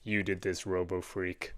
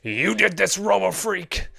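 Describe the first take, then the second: First: It is said in his normal voice. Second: It is said in a dramatic anime-character voice.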